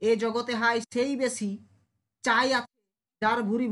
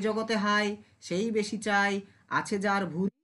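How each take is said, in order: First: The pause comes before the word chai. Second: The pause comes after the word chai. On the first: The speaker calls it wrong. "ভাল লাগছে?" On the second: The speaker calls it right. "তাহলে ভালো কোনটা লাগছে?"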